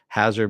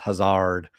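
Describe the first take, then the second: First: It is pronounced the ordinary English way. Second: It is pronounced in an altered, unusual way. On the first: This is the everyday word. "even though it's Hazard" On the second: This is how the show names it. "that's how they pronounce it"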